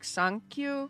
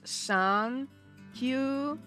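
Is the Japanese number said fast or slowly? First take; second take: fast; slow. First: It is said fast as one running word. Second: It is said slowly as two separate parts. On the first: "if you say it fast" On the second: "if you say it in Japanese"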